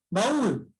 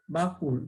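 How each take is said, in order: First: Said in the usual way. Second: "baúl" broken in two, ba, úl; a small break between the syllables of "baúl"; split into syllables. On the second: Shown as a demonstration. ("baúl" separado en sílabas: ba, úl) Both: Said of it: "Se han separado".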